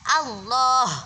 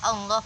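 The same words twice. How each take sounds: First: The first vowel is a fully open a. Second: The first vowel is unopened, sounding like e. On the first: The speaker calls it right. "A-nya tetap dibaca A dengan fathah yang sempurna" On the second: The speaker calls it wrong. "A-nya tidak mangap. Sehingga dibaca Allah, Allah, bunyinya Allah, e"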